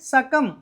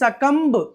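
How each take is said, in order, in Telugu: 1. ఈ పదం చివరిలో b శబ్దం లేకుండా ముగుస్తుంది. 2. ఈ పదం చివరిలో b శబ్దంతో ముగుస్తుంది. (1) "ఈ బిని సైలెంట్ చేయాలి" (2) "అంతేగాని సకంబ్ కాదండి"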